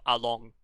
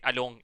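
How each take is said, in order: First: Said in the usual way. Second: "along" said the French way; "along" as a French speaker would say it; French-tinged pronunciation. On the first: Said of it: "instead of along". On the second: Shown as a demonstration. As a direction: say "along" with a French-accented ending. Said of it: "when I say along instead of along".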